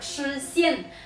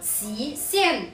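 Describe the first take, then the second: First: The first syllable sounds like shu. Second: The first syllable sounds like shi. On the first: The speaker calls it wrong. "并不是读书仙" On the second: The speaker calls it right. "是读史仙"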